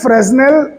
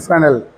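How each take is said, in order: First: The s is sounded in the middle. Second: The s is silent in the middle. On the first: This is the English way of saying it. The speaker calls it wrong. "फ्रेजनेल मैं गलत प्रोनाउंस कर रहा हूं, ये तो अंग्रेजी में कहते हैं" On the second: This is the French way of saying it. The speaker calls it right. "एस को नहीं बोलते फ्रांस में"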